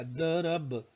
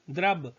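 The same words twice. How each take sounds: First: दरब said with द and र split apart; teacher splitting the word to show the र after द; spelled out slowly. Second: द्रब said with द and र joined as one cluster; teacher giving the proper joined form of द्रब. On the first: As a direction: break दरब apart to show the order of sounds. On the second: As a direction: say द्रब with the द्र fused together. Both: Shown as a demonstration. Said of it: "द के बाद रो आया".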